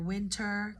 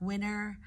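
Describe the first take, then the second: First: The T sound is clearly pronounced. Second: The T sound is dropped entirely.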